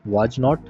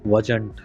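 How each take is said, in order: First: The two words are said separately and fully. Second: The two words are joined into one contracted word. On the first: "अभी आप भले beginner हैं, तो आप जरूर इसी तरह बोलिए" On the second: "इसकी प्रैक्टिस आप अभी से करना शुरू कर दीजिए"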